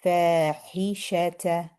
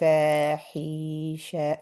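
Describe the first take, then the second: First: Only the first vowel is long; the rest short. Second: Every vowel in the word is drawn out long. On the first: The speaker calls it right. "We want to say fa, then hisha" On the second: The speaker calls it wrong. "we shouldn't say fahisha like that, because then everything becomes two counts"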